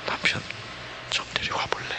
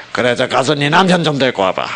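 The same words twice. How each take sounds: First: Much softer, near-whispered gentle question; tender plea. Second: Curt, blaming order to fetch the husband; condemning reading. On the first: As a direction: ask it with tears in the eyes. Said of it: "아마 눈물이 걸성거렸을 겁니다". (눈물 머금은 듯 부드럽고 조용하게) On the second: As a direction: read it as a mild accusation. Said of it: "정죄의 형태로". (정죄하듯 나무라는 말투) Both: Shown as a demonstration.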